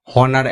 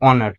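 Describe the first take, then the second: First: হনার said with a sounded H, the wrong way; wrong pronunciation. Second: অনার with a silent H, starting on the vowel; correct pronunciation. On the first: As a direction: pronounce হনার with the H, as the mistake to avoid. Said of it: "একদমই নয়". (ভুল উচ্চারণ, হনার, H সহ) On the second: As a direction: say অনার with no H sound at all. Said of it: "এটা হচ্ছে গিয়ে". (সঠিক উচ্চারণ, অনার, H নীরব) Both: Shown as a demonstration.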